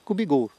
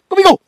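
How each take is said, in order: First: The command is said in a calm, gentle way. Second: The command is said in an urgent, energetic way. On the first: The dog should move slowly to the left. "si je veux par exemple que Koubi, il aille doucement à gauche" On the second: The dog should move fast. "si je veux qu'il aille vite"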